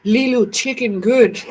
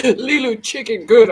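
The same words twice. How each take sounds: First: Slow, broken-word Fifth Element caveman voice; caveman talk. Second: Broken caveman words through laughter; laughing caveman talk. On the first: Vlogger quoting The Fifth Element to viewers, slow mock caveman speech. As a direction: copy Leeloo learning to talk, slow. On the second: Vlogger repeating the movie line to viewers, laughing through it. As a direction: crack up mid-quote. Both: Retold or imitated. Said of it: "She talked like a damn caveman".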